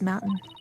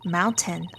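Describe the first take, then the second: First: The t sound in the middle is dropped. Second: The t sound in the middle is clearly pronounced. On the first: "I just don't normally do it in my actual speaking" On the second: "I should really enunciate that T"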